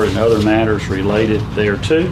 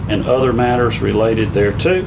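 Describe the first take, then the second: Both takes have the same delivery.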